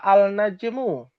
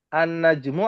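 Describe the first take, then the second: First: The l is pronounced clearly before the n. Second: The l merges into a doubled n sound.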